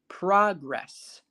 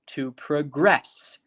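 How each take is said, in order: First: The stress is on the first syllable. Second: The stress is on the second syllable.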